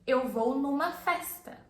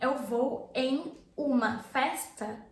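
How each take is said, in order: First: The words em uma merge into numa. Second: The words em uma are said separately in full. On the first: "you say" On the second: "instead of you saying"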